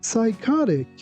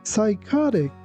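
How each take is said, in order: No difference in how they are said.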